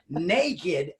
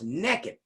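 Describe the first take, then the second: First: The word is said in the standard careful way. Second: The word is said in a local regional way. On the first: Someone is simply unclothed. "as you enunciated properly" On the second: Someone is unclothed and up to no good. "you ain't from around here. You don't say it right. it's pronounced naked"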